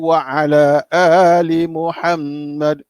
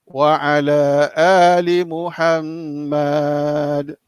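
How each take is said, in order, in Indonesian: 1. Suku kata terakhir Muhammad dibaca pendek. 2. Suku kata terakhir Muhammad dibaca panjang. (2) "Bukan kalau macam dekat nasyid"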